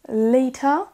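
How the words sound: The middle consonant is a clear T sound. "les Britanniques vont dire later"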